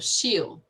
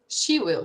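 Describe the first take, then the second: First: The words are contracted into one syllable. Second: Both words are said in full.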